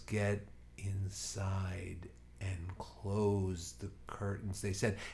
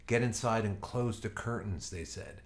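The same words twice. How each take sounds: First: It is spoken at an uncomfortably slow pace. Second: It is spoken at an ordinary reading pace. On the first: "the way it was delivered is" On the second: "if you just read something"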